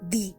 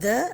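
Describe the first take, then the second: First: The word ends in a long 'ee' vowel. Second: The word ends in a short 'uh' vowel. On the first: It is used before a vowel sound. "ரெண்டாவது வந்து தி" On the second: It is used before a consonant sound. "ஒன்னு வந்து த"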